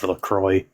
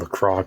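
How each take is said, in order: First: The final x is left silent. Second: The final x is pronounced aloud. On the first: The speaker calls it right. "instead of LaCroix" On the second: The speaker calls it wrong. "you keep on saying LaCroix"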